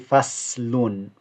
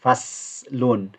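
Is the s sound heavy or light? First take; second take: light; light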